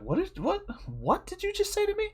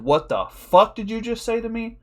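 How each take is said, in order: First: Very high, soft, friendly uncle voice; gentle, sky-high voice for talking to a friend's kid; cool uncle voice. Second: Raised pitch, stressed FUCK; mock outrage, as only the eyes would say it; acted affronted disbelief, pitched up; indignant inner reaction. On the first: Acted. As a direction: put on a high-pitched cool uncle act. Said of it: "I went cool uncle voice". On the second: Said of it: "in my eyes, I said".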